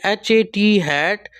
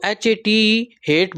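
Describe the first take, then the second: First: हैट said with a short flat a; slow spelled-out एच ए टी then हैट; teacher modelling the short vowel; short vowel demo. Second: हेट said with a long ay vowel; teacher modelling the long vowel; long vowel demo. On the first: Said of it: "long और short वॉल sound का बताया गया है". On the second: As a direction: spell out एच ए टी ई, then हेट. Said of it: "हम ई लगाते हैं". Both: Shown as a demonstration.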